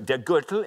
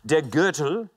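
First: It is said at a quicker pace. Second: It is said at a slower pace.

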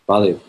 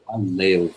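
First: It is said coldly, without feeling. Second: It is said warmly, with feeling.

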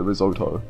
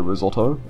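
First: It is said the American way. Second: It is said the speaker's own non-American way. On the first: "Americans call it risotto" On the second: "Like me"

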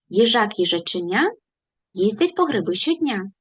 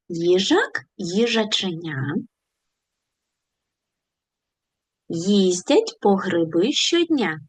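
First: The phrase is spoken very fast. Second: The phrase is spoken slowly. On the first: "І спробуємо ще швидше" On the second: "Давайте повільно повторимо цю скоромовку"

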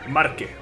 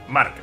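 First: The word ends with an extra vowel sound. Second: The word ends in a bare consonant sound. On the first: The speaker calls it wrong. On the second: The speaker calls it right.

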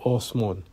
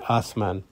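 First: The word is said with Iranian Persian pronunciation. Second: The word is said with Pakistani Urdu pronunciation. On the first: This is how the word is said in Iran. "in Iran, ... They say Osman" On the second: This is how the word is said in Pakistan. "whereas in Pakistan, they would say Asman"

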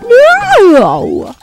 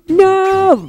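First: It is said with a voice crack. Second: It is said in a steady voice.

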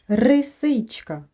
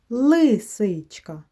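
First: The word begins with an R sound. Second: The word begins with an L sound. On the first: The speaker calls it wrong. "Так, помилка" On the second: The speaker calls it right. "Треба лисичка"

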